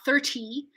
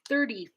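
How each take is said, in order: First: The middle T is a full released T. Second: The middle T is a quick D-like flap. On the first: The speaker calls it wrong. "not thirty" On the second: The speaker calls it right. "it's just going to flap"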